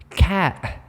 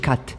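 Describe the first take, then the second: First: The final t is replaced by a glottal stop. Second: The final t is clearly released. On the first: "it becomes a glottal stop" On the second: "ما كيقولوش cat"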